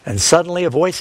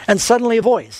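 First: Said in the usual way. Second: "and suddenly a voice" said higher with "voice" stressed; careful emphatic reread. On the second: Shown as a demonstration. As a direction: lift the line and lean on "voice". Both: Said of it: "show you these words again more carefully".

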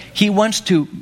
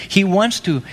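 No difference in how they are said.

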